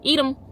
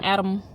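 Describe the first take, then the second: First: The first syllable sounds like "eat". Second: The first syllable sounds like "add". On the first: The speaker calls it right. "eat, probably that" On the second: The speaker calls it wrong. "not Adam"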